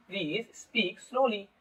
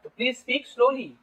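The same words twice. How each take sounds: First: Slow, softer demo of please speak slowly; spoken slowly. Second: Said in the usual way. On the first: Shown as a demonstration. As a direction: draw out each word of please speak slowly as you teach it. (Please speak slowly धीरे धीरे बोलकर) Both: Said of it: "धीरे धीरे बोलो".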